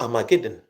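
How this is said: The word is said with an English pronunciation. "when you come to England, they say Armageddon"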